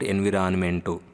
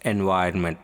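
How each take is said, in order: First: The second syllable is said as 'vi'. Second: The second syllable is said as 'vai'. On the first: The speaker calls it wrong. "Not ఎన్విరాన్మెంటు" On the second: The speaker calls it right. "It's ఎన్వైరన్మెంట్"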